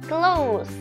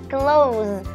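First: The word ends with a hissing s sound. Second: The word ends with a buzzing z sound. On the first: It means near. "pakainya bunyi S" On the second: It means to shut something. "pakainya bunyi Z ya"

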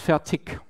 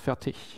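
First: The word ends with a k-like sound. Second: The word ends without a k-like sound. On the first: This is the regional pronunciation. The speaker calls it wrong. "with more or less a K at the end" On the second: This is the standard pronunciation. The speaker calls it right. "in proper German"

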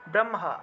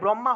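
First: The h and m sounds are split apart. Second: The h and m sounds are merged together. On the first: The speaker calls it right. "উচ্চারণ হবে ব্রহ্মা" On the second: The speaker calls it wrong. "আমরা তো বাংলায় বললে ব্রহ্মা হয়ে যায়, কিন্তু এটা ব্রহ্মা হবে না"

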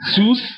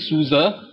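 First: One syllable, ending in the 's' sound. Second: Two syllables, ending in a weak 'uh' vowel. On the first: The speaker calls it wrong. "definitely not Susie, Sus" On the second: The speaker calls it right. "it could either be Suza, Suza"

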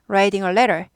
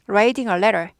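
First: The t sounds are softened to a quick flap. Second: The same.

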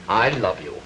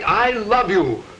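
First: It is said flatly, without feeling. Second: It is said warmly, with feeling. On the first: The words are said without real conviction. The speaker calls it wrong. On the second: The words are meant sincerely. The speaker calls it right.

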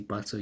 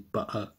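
First: The middle consonant is a clear t sound. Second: The middle consonant is a glottal stop. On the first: The speaker calls it wrong. "you don't say butter" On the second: The speaker calls it right. "you say butter. That small pause that you make is called a glottal stop"

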